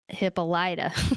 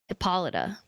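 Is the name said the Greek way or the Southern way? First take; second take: Southern; Greek. First: The name is said with a Southern pronunciation. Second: The name is said with its Greek pronunciation. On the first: "the southern way, which is Hippolyta" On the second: "in Greek, to my knowledge, it's pronounced Hippolyta"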